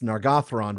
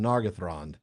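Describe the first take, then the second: First: The stress falls on the second syllable. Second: The stress falls on the first syllable. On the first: The speaker calls it right. "it's Nargothrond" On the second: The speaker calls it wrong. "rather than Nargothrond"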